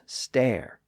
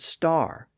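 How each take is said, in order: First: The vowel is an 'er' sound. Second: The vowel is an 'ar' sound. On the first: This is the older pronunciation. "previously pronounced stare" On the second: This is the modern pronunciation. "kept the newer R sound"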